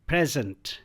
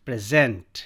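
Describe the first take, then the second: First: "present" as PREZ-ent, first syllable strong; stress on first syllable. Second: "present" as pri-ZENT, second syllable punched; light start, hit gent in "present"; stress on second syllable. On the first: Teacher drilling "present" as a noun, stress on PRE. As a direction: hit PRE in "present", let the ending fade. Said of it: "I'll pronounce these four words as nouns". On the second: Teacher drilling "present" as a verb, stress on gent. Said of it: "same words को अब यहाँ पे हम verb के रूप में". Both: Shown as a demonstration.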